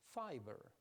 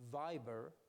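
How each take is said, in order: First: The word begins with a voiceless f sound. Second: The word begins with a voiced v sound. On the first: The speaker calls it wrong. "he will say fiber" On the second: The speaker calls it right. "instead of saying viber"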